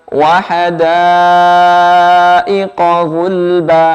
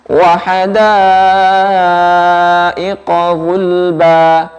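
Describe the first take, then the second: No difference in how they are said.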